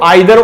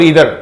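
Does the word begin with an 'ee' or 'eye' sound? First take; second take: eye; ee. First: The first vowel sounds like 'eye'. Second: The first vowel sounds like 'ee'. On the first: "इसको आइदर और इधर pronounce करते हैं हम" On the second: "इसको आइदर और इधर प्रोनाउंस करते हैं हम"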